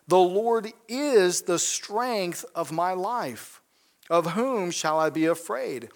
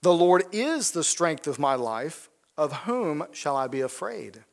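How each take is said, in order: First: Slow, with "is" stressed firmly as a statement; slow firm declaration. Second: Said in the usual way. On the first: Shown as a demonstration. Preacher declaring David's words to the congregation, slow and firm. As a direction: say "is" like a settled fact, no question. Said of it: "is," I mean, he is making a statement". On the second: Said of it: "If you really believe that".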